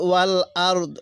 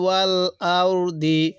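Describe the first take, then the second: First: The phrase ends on the bare final consonant. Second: The phrase ends with a short final i vowel. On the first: The reader stops here. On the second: The reading continues without a stop.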